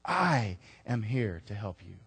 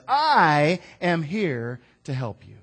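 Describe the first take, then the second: First: Gentle repeat. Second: Slow, loud I am here to help you; loud proclamation. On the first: I am here to help you. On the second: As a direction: declare it with weight. God says. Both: Acted.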